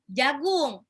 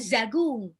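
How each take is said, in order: First: The word begins with a j sound. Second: The word begins with a z sound. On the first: The speaker calls it right. "jim, jagung" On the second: The speaker calls it wrong. "bukan zagung"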